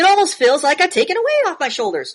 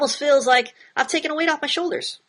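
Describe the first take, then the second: First: It is read with exaggerated, dramatic emotion. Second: It is read in a natural, undramatized tone. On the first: The speaker calls it wrong. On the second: The speaker calls it right.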